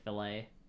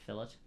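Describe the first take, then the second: First: The word is said the American way. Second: The word is said the non-American way. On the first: "Americans also say fillet" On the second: "instead of fillet"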